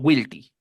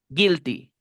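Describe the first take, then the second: First: The first vowel is a wi glide. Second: The first vowel is a plain i sound. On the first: The speaker calls it wrong. "no guilty" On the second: The speaker calls it right. "La U y la I suenan I"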